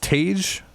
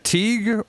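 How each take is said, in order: First: The name rhymes with beige. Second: The name does not rhyme with beige. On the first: "like uh, like beige" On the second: "it's either Teague"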